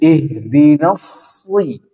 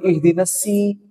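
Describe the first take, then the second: First: The s sound is heavy and emphatic. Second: The s sound is light and plain. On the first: The speaker calls it right. "Nah, harus seperti itu" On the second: The speaker calls it wrong. "Gak boleh ihdinas si. Jadi sin"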